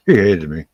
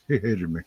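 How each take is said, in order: First: "he hated me" punched louder; emphatic. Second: Said in the usual way. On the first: Shown as a demonstration. Teller stressing how much he hated it, louder. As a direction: hit "he hated me" hard.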